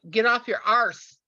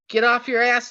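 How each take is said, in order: First: It is said in a put-on foreign accent. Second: It is said in the speaker's ordinary accent. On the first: The speaker calls it right. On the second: The speaker calls it wrong.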